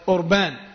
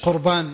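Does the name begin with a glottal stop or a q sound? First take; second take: glottal stop; q sound. First: The name begins with a glottal stop. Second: The name begins with a q sound. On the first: The speaker calls it right. "أوربان بالهمزة" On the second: The speaker calls it wrong. "مش قربان"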